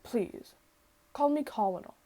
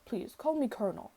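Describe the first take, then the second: First: Colonel said col-o-nel, in three syllables; spelling pronunciation of Colonel. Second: Colonel said as "kernel"; two syllables in Colonel, KER-nel, softly; standard pronunciation of Colonel. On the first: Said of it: "Colonel is not spelled like that". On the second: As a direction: say Colonel with an R sound and no first L. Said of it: "I guess I'll call him Colonel". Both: Acted.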